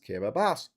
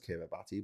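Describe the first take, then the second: First: The 'ti' is said with an s sound. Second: The 'ti' is said with a t sound. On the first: The speaker calls it right. "but it's pronounced Kiribati" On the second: The speaker calls it wrong. "I know it says Kiribati"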